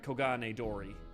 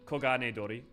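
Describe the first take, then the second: First: The R is a hard American-style R. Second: The R is a light sound between R and L. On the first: "I get to do the hard, like the hard R's" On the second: "it should be like Kogane Dori"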